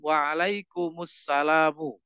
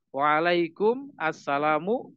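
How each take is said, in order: First: The final m takes a u vowel linking the words. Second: The words are kept separate with no linking vowel.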